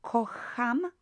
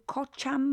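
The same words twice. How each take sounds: First: "kocham" with a breathy h sound, as "ko-ham"; correct Polish ch. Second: "kocham" with an English ch, as "kot-cham"; mispronounced ch. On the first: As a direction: say "kocham" slowly with ch as h. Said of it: "No, it's kocham". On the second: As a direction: misread "kocham" with a church-like ch. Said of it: "could actually see the C H as ch". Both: Shown as a demonstration.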